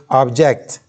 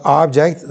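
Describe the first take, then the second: First: ObJECT, second syllable stressed as the verb. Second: OBject, first syllable stressed as the noun. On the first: Teacher contrasting the verb with the noun, object stressed on its second syllable. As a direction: lean on the JECT in object. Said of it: "then you say object". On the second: Teacher showing students the noun, object stressed on its first syllable. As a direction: hit the OB in object. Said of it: "Stress the first part". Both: Shown as a demonstration.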